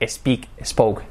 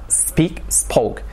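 First: "Speak, spoke" as "espeak, espoke"; added Spanish E. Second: "Speak, spoke" with long hissed initial S; starting on S. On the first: Teacher imitates Spanish speakers adding an E, mispronunciation demo. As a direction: slip an E before the S in "Speak, spoke". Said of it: "a añadir una E delante". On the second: Teacher corrects learners' added E, clean S demo. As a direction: begin "Speak, spoke" right on the S, no E. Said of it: "Empezando por la S". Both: Shown as a demonstration.

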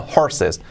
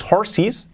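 First: "horses" ending in "-ses", with an E sound; correct pronunciation. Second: "horses" ending in Spanish "-sees", rising; wrong pronunciation. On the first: Teacher corrects learners, "horses" ending "-ses". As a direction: say "horses" with short final E, falling. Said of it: "No, horses". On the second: Teacher warns learners off it, "horses" ending in "ee". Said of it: "Cuidado, no digas horses". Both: Shown as a demonstration.

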